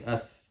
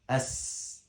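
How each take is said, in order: First: The consonant sounds like a th sound. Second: The consonant is a hissing s sound. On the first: The speaker calls it wrong. "Some people, they pronounce it different way" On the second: The speaker calls it right. "Your teeth close and as"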